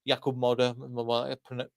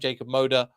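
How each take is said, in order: First: The name is pronounced the Polish way. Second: The name is pronounced the English way.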